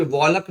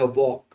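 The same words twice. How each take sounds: First: "वॉलक" with an audible L before K; l sounded. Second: "वॉक" with no L before the K; silent l. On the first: Teacher warning against a reading, L sounded in "वॉलक". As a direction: say "वॉलक", pronouncing the silent L. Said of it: "इसको भी वॉलक नहीं पढ़ेंगे". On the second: Teacher giving the correct reading, "वॉक" with silent L. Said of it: "पढ़ेंगे वॉक". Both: Shown as a demonstration.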